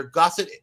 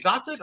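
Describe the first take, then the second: First: "Gossett" with an open "ah" first syllable. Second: "Gossett" with a long "oh" first syllable. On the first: Host checking the actor's name, "Gossett" as GAH-sit. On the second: Host trying the other reading, "Gossett" as GO-set. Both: Shown as a demonstration. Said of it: "is it Gossett or Gossett".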